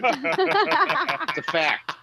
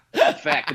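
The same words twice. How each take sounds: First: Slow, high, stretched-out delivery; milk the line out slowly; drawn-out fact. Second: Said in the usual way. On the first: Acted. Comic stretching the punchline out slowly and high.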